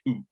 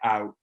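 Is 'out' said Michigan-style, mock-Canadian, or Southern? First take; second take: mock-Canadian; Southern. First: The vowel is pushed up to 'ooh'. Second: The vowel starts low, as in the South.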